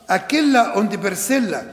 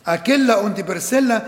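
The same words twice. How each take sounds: The two takes are said the same way.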